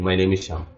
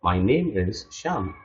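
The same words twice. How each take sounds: First: The sentence is rushed out quickly. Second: The sentence is slow with the name stretched. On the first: The speaker calls it wrong. "Don't rush up like saying" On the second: The speaker calls it right. "you have to stretch your name. ... That's how you say it"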